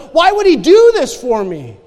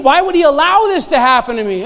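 First: Grateful question. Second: Put-on old despairing question. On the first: Retold or imitated. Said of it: "it changes to the". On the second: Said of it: "when I was thinking".

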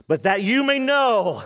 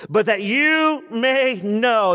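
First: Said in the usual way. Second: Slow down on "But that you may know"; slow, emphatic. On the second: Shown as a demonstration. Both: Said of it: "there it is".

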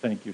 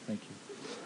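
First: Said in the usual way. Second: Whispered thanks. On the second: Acted. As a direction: whisper "Thank you" under the breath. Acting out being forgiven.

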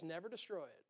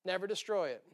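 First: Hushed. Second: Said in the usual way. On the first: Acted. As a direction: drop to a near whisper on Never destroy it. Repeats the line, first hushed.

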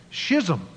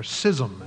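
First: "schism" begun with a sh sound. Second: "schism" begun with a plain s sound. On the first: Preacher listing sermon topics to church, "schism" said SHIZ-um. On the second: Preacher offering some people's pronunciation, "schism" said SIZ-um. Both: Shown as a demonstration. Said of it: "as some people pronounce it".

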